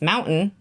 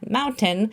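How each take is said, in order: First: The word is said casually, in an everyday way. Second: The word is said carefully, with full attention. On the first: The speaker calls it wrong. "I know I say it wrong" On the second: The speaker calls it right. "have to concentrate on it"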